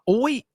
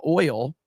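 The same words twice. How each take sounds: First: "oi" for oil, the L dropped; dad's Southern pronunciation. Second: Said in the usual way. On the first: Retold or imitated. Reading how a Southern dad says it, "oi" for oil. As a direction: say "oil" without its L, just "oi". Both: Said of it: "oi instead of oil".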